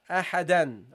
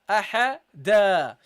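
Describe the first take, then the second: First: The word ends with an n sound. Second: The word ends on a vowel without n. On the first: The sentence continues after the word. "if this is in the middle of sentence, we read ahadan" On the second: The word ends the sentence. "If there is a full stop, guys, we read this as ahada"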